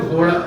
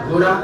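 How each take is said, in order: No difference in how they are said.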